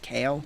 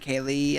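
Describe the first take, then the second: First: The name is said with one syllable. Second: The name is said with two syllables. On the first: This is how the speaker thinks it is said. "but I think it's Kale" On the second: This is how the other person says it. "I think you pronounce it Kaylee"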